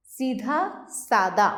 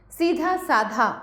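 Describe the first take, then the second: First: Said in the usual way. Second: सीधा साधा with a breathed "dh" in both words; slow सीधा साधा, ending "saa-dhaa"; wrong aspiration. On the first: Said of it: "सादा होता है". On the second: Shown as a demonstration. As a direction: slowly echo the dh of सीधा in साधा. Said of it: "साधा नहीं होता".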